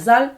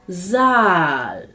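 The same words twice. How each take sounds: First: The vowel is cut short. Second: The vowel is held long. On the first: The speaker calls it wrong. "А не" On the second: The speaker calls it right. "Довгим буде голосний звук також у разі подвоєння літер"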